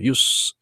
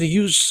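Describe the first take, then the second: First: It is pronounced the way the noun sounds. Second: It is pronounced the way the verb sounds. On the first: The speaker calls it right. "명사로서 use 이렇게 발음하죠" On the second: The speaker calls it wrong. "use라고 하지 않고"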